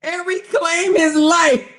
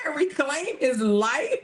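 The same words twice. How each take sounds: First: High, slow, loud and falling at the end; loud, drawn-out incredulity; loud mocking repeat. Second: High, slowed question breaking into laughter; amused, rising disbelief; incredulous question. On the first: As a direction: belt it out in mocking disbelief. Louder repeat after laughing fit. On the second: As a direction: repeat it in disbelief, about to crack up. Incredulous repeat of read quote. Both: Real, not acted.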